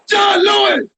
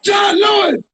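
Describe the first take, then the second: No difference in how they are said.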